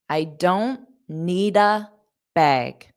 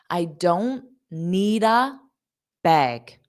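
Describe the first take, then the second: No difference in how they are said.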